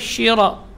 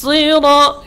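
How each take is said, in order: First: It starts with a hushing 'sh' sound. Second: It starts with a strong hissing 's' sound. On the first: The speaker calls it wrong. "itu tidak boleh syira" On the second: The speaker calls it right. "tapi si"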